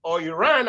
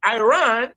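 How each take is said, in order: First: Iran as "ee-ran", short ee sound first; Iran pronounced ee-ran; other way to say Iran. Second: Iran as "eye-ran", long I like a British speaker; Iran pronounced eye-ran; Iran said two ways. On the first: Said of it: "British or American accent". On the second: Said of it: "whatever accent". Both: Shown as a demonstration.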